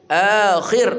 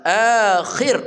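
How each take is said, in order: No difference in how they are said.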